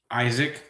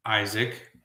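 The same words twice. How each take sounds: The two takes are said the same way.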